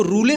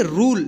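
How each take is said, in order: First: रूले in two syllables, final e sounded; wrong final e. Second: रूल as one syllable, ending on l; correct silent e. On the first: Teacher warning pupils how not to read rule, mispronounced. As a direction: say रूले with an extra "e" after the l. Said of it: "इसको रूले नहीं पढ़ेंगे". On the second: Teacher answering how to read rule, correctly pronounced. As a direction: say रूल with long oo and no final vowel. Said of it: "क्या पढ़ेंगे?". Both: Shown as a demonstration.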